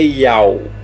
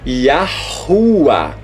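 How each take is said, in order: First: The name is said without any h sound. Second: The name is said with clear h sounds. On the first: The speaker calls it wrong. "Não é Iau" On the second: The speaker calls it right. "o rei tem som de H e de A"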